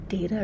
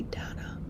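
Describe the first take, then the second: First: "data" said DAY-tuh; AY in the first syllable of "data"; long-A pronunciation. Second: "data" said DAT-uh; short-A pronunciation. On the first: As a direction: say "data" to rhyme with "later" minus the R. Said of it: "do you say data". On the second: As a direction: open A in "data", not AY. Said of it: "or do you say data". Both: Shown as a demonstration.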